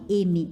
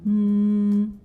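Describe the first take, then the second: First: It is said as the letter's spoken name. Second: It is said as the letter's bare sound. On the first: "a letra M tem o nome M" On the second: "o som da letra M é M"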